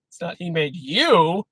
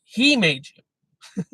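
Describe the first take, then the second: First: Wrong stress on "you". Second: HE drawn out slowly, stressed. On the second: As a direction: lean on He, then slow. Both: Shown as a demonstration. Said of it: "The emphasis is on him, not you".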